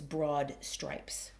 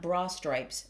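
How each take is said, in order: First: A light d is heard at the end of broad. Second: The d at the end of broad is dropped. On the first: The speaker calls it right. "there's just a little bit of a d on the broad" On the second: The speaker calls it wrong. "so that we know it's not bra stripes"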